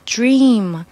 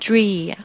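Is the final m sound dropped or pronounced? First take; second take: pronounced; dropped. First: The final m sound is clearly pronounced. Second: The final m sound is left off. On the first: The speaker calls it right. "Dream 后面这个M 不要把它丢掉" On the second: The speaker calls it wrong. "M 省了，这就不好听"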